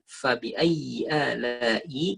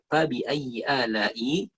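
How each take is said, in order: First: The f sound has breath flowing through it. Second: The f sound has no breath flowing through. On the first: The speaker calls it right. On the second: The speaker calls it wrong.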